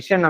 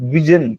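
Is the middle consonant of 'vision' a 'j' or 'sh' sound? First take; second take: sh; j. First: The middle consonant is a 'sh' sound. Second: The middle consonant is a 'j' sound.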